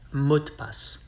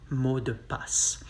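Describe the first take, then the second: First: The phrase is said fast, the e dropped. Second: The phrase is said slowly, every sound full.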